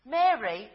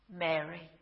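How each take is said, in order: First: Said in the usual way. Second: Soft, lower, gentle calling of a name; tender name. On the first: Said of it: "he says it". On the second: Acted. Jesus at the tomb gently calling Mary, soft and tender. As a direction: say her name softly, full of recognition. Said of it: "And he says it in Aramaic".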